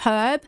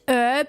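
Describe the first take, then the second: First: The word starts with a clear H sound. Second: The word starts without an H sound. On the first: The speaker calls it right. "instead of herb" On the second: The speaker calls it wrong. "it's the Americans that say ... herb"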